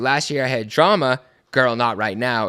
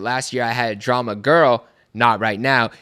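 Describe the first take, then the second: First: There is a pause after drama. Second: Drama and girl run together without pause.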